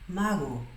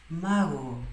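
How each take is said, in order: Both takes have the same delivery.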